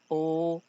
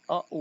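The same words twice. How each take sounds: First: The vowel is long and closed. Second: The vowel is short and open. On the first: "ela vai ser longa e fechada" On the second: "Ela é bem breve"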